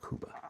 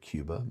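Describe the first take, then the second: First: It is said with a Spanish pronunciation. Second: It is said with an English pronunciation. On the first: This is the proper way to say it. The speaker calls it right. "the proper way to say it is Cuba" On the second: This is the speaker's habitual way of saying it. The speaker calls it wrong. "I usually say Cuba"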